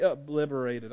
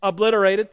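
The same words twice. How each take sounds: First: Obliterated said as /əblɪvəreɪtəd/, a v slipped in for the t; garbled obliterated, middle t turned to v; stumbled word. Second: Obliterated said cleanly with a t, ob-LIT-er-ated; Obliterated fixed after help, clear t; corrected word. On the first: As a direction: trip over obliterated, saying obliverated. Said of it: "I can't even speak English". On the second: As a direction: say Obliterated properly, stressing LIT. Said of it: "Help me, English teacher". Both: Real, not acted.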